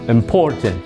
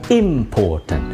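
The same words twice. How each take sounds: First: The stress is on the second syllable. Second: The stress is on the first syllable. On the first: The speaker calls it right. "penekanannya ada pada suku kata yang kedua" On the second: The speaker calls it wrong. "bukan important ... menekan kata ini pada suku kata yang pertama"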